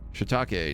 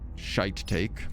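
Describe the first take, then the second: First: The first syllable sounds like 'shee'. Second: The first syllable sounds like 'shy'. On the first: The speaker calls it right. "Sorry, I missed an I. Shiitake" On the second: The speaker calls it wrong. "not shite take"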